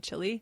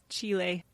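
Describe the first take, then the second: First: It sounds like the food word 'chili'. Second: It does not sound like the food 'chili'. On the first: The speaker calls it wrong. "I always say Chile, and they're like, that's the restaurant" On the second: The speaker calls it right. "The country is pronounced Chile"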